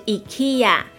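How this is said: It is said with a Swedish pronunciation. The speaker calls it right. "瑞典的正确发音是IKEA"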